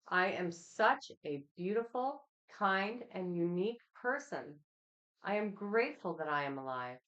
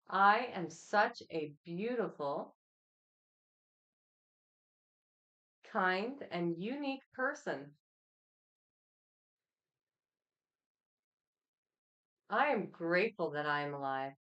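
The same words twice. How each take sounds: First: It is read at a normal pace. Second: It is read slowly.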